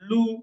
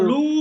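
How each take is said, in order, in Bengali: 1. স্বরধ্বনিটি ছোট রাখা হয়েছে। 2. স্বরধ্বনিটি টেনে দীর্ঘ করা হয়েছে।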